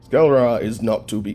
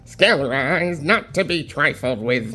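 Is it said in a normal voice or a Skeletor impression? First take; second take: normal voice; Skeletor impression. First: It is read in his normal voice. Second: It is said in a Skeletor impression voice.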